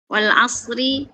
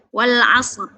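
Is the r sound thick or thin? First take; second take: thin; thick. First: The r is thin and light, ending in a vowel. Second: The r is thick and heavy, ending on it. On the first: "Wal asri itu tipis" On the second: "ketika kita wakof berubah menjadi tebal"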